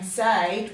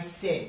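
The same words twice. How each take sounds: First: The vowel is a long A sound. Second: The vowel is not a long A sound. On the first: The speaker calls it wrong. "Usually AI says A, but we've changed the way we say this word. Rather than it saying said" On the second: The speaker calls it right. "we say said"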